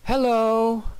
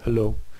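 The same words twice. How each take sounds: First: It is longer with lively, varied pitch. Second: It is short with a flat, low pitch.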